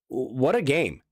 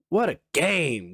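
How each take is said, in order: First: It sounds exasperated and frustrated, not celebratory. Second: It sounds excited and celebratory, like cheering. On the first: The game was frustrating to watch. "what the frick, man?" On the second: The game was thrilling and great. "I don't say that in any kind of like"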